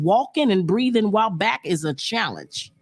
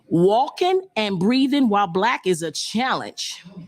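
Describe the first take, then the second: First: It is said at normal speed. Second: It is said a little slower.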